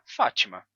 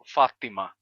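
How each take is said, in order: First: The t sounds like a ch sound. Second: The t is a heavy, emphatic t sound. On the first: This is how the name sounds in some Portuguese accents. "de um sotaque que transforma o T em Ti" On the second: This is how the name sounds in Arabic. "pronunciado assim em árabe, com o som do T, o T enfático"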